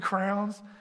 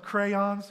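First: It is said to sound like 'crowns'. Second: It is said with the vowel of 'day'. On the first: "I say crowns" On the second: "I know the word is pronounced crayons"

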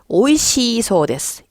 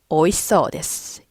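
First: The i vowel is drawn out long. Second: The i vowel is dropped and kept short. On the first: The speaker calls it wrong. "이 발음하시면 안 돼요" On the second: The speaker calls it right. "이를 버리고"

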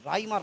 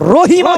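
First: The name is said without the h sound. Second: The name is said with the h sound. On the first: The speaker calls it wrong. "রাইমা না, রাইমা না" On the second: The speaker calls it right. "রহিমা বলেন"

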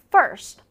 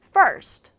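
No difference in how they are said.

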